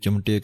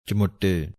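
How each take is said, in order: First: The word is clipped, with no 'u' vowel after 'ch'. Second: The word has a 'u' vowel and a doubled 't'. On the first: The speaker calls it wrong. "ਆਮ ਹੀ ਜਲਦਬਾਜ਼ੀ ਦੇ ਵਿੱਚ ਅਸੀਂ ਚਮਟੇ ਕਹਿ ਜਾਂਦੇ ਹਾਂ" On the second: The speaker calls it right. "ਲੇਕਿਨ ਪਾਠ ਲਿਖਿਆ ਹੈ ਚਮੁੱਟੇ"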